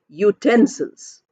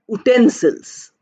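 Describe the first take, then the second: First: The word begins with a 'y' then 'oo'. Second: The word begins with a plain 'oo' vowel. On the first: The speaker calls it right. "it's pronounced as u, y, and oo. Y is a consonant, so we say utensils" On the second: The speaker calls it wrong. "It is not pronounced as utensils"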